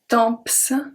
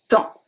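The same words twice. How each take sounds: First: The final P and S are pronounced. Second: The final P and S are silent. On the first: The speaker calls it wrong. "We don't say temps. Don't say that" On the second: The speaker calls it right. "It's temps. Don't pronounce the P, don't pronounce the S"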